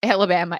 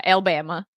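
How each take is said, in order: First: Said in the usual way. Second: Alabama squeezed to three syllables, Al-ba-ma; Cody's Alabama. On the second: Retold or imitated. Showing a friend how Cody says Alabama, clipped Al-ba-ma. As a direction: swallow the middle syllable of Alabama. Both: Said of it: "That's how he says it".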